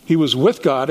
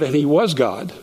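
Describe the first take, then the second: First: "with" leaned on, falling; stress on with. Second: "was" lifted with a rise; stress on was. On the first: Stressing "with" to the class, locative God. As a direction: stress "with" to show he's beside God. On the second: Stressing "was" to the class, he is God. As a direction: stress "was" to show identity. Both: Shown as a demonstration. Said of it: "twice he's repeated that".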